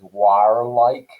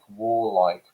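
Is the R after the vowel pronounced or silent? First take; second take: pronounced; silent. First: The R after the vowel is strongly pronounced. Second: The R after the vowel is silent.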